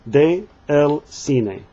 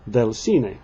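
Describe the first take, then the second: First: De and el are said as separate words. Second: De and el merge into one syllable. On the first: The speaker calls it wrong. "they don't want to say it that way" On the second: The speaker calls it right. "then you would say"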